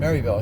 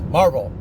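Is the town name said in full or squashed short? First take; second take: full; squashed. First: All syllables of the name are said clearly. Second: The name is squashed into two mumbled syllables. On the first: An outsider reading the name. "when I read it, I said" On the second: A local saying the name. "put a couple of marbles in your mouth"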